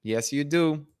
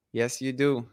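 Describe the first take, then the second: No difference in how they are said.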